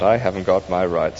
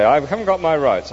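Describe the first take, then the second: First: "I haven't got my rights" said lower and calmly, the stress on "I"; lower, gentle "I haven't got my rights"; calm spirit. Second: "I haven't got my rights" said higher, the stress on "got"; a grumbling "I haven't GOT my rights"; indignant ghost. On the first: The spirit gently answers the grumbling ghost. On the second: The ghost throws the spirit's words back, indignant. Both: Acted.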